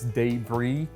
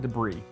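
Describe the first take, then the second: First: It is pronounced the New Orleans way. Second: It is pronounced the Alabama way. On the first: "if you're from New Orleans, you probably pronounce this debris" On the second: "as an Alabama boy, I call it debris"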